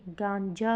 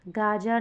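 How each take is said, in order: First: गांजा with an n before ज; corrected nasal form. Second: गाजा with a plain long "aa", no n; wrong form, no nasal. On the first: Teacher giving students the correction, गांजा with nasal. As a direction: sound the nasal in गांजा, "gaan-ja". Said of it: "गांजा होगा". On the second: Teacher showing students the error, गाजा without nasal. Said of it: "गाजा नहीं". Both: Shown as a demonstration.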